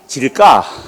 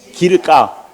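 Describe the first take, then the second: First: The word begins with a j sound. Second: The word begins with a g sound.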